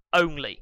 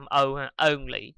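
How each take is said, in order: First: "only" with the short Vietnamese on vowel; Vietnamese mispronunciation. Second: "only" with the long ô vowel, said slowly; correct pronunciation. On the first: A teacher imitates the usual Vietnamese error. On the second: A teacher models the right vowel in only. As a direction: isolate the vowel, then say "only" properly. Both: Shown as a demonstration. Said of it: "Người Việt mình hay đọc là only ha".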